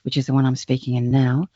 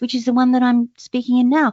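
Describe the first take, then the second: First: The voice is low and resonates in the chest. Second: The voice is high and resonates in the head. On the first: "your chest voice" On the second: "your head voice"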